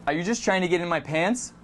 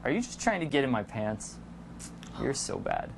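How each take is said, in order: First: Said in the usual way. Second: Low, soft, half-whispered teasing; lowered, breathy playful tease; playful flirty tease. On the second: Shown as a demonstration. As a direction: hush it like a private joke.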